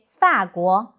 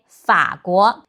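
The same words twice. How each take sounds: First: Slow 法国 with 法 in a falling tone; Taiwanese pronunciation. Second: Slow 法国 with third-tone 法, kept low; mainland-style 法国, low tone on 法; mainland pronunciation. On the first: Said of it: "In Taiwan, they say". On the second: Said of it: "In mainland China". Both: Shown as a demonstration.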